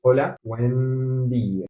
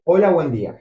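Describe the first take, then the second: First: Slowly spelled out greeting; slow demo. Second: Said in the usual way. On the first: Shown as a demonstration. Teacher to learners: slow, careful greeting. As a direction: say Hola, buen día slowly, word by word. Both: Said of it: "You would say something like this".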